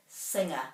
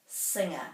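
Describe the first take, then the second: No difference in how they are said.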